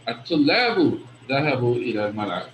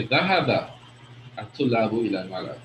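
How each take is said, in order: First: الطلاب set apart as the key word, the remainder rattled off; stress on الطلاب. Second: ذهب singled out, pause, the rest lower and quick; stress on ذهب. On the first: Teacher answering who went to the playground, stress on الطلاب. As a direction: lean on الطلاب, then run quickly through the rest. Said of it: "the emphasis here is on the students". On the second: Teacher answering what the students did, stress on ذهب. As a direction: hit ذهب, pause, then hurry through the remainder. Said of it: "here the emphasis is on the action". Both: Shown as a demonstration.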